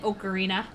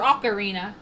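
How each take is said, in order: First: The first O is a long O. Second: The first O is not a long O. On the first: "I'm used to the long O sound" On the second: "Or Ocarina"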